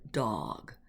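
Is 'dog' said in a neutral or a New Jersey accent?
neutral. The word is said without a New Jersey accent. The speaker calls it right. "I learned real quick that um, to pronounce the word dog"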